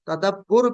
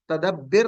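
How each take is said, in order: First: The vowel before the final r is u. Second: The vowel before the final r is i. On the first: "तदब्बुर भी नहीं है" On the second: "इस तगफिर की तरह तदब्बिर नहीं है"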